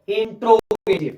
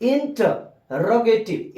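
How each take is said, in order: First: The word begins with 'intro', dropping a syllable. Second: The word begins with 'inter', all syllables sounded. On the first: The speaker calls it wrong. "ये गलत pronunciation है" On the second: The speaker calls it right. "सही क्या होगा"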